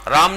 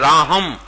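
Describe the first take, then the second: First: The name has no h sound after the vowel. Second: The name has an h sound after the vowel. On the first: This is how the name is said at home. "राम नहीं बोलेंगे" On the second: This is how the name is said in that region. "हम वहां बोलेंगे राहम"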